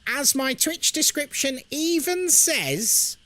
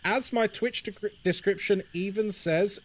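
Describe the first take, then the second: First: It is said in a put-on voice. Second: It is said in his normal voice.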